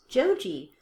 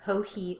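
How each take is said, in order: First: The name begins with an English J sound. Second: The name begins with a breathy H sound. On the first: The speaker calls it wrong. "have always referred to the designer ... as Joji Locatelli" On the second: The speaker calls it right. "thank you, Ho-He, for correcting our pronunciation of your name"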